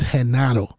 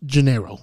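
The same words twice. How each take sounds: First: "Genaro" with a breathed H at the start; Spanish "Genaro", H sound and open A; Spanish pronunciation. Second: Anglicized "Gennaro", J sound and English R; English pronunciation. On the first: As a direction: say "Genaro" as heh-NAH-ro, tapped R. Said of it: "But in Spanish is". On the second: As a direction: say "Gennaro" as juh-NAIR-oh. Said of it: "His name in English is pronounced". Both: Shown as a demonstration.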